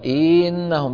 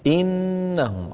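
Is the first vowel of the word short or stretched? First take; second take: stretched; short. First: The first vowel is drawn out too long. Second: The first vowel is kept short and direct. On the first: The speaker calls it wrong. "لا تمط الكسرة زيادة لا تقول إنهم لا تفعل هكذا" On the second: The speaker calls it right. "على طول"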